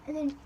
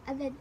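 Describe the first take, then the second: No difference in how they are said.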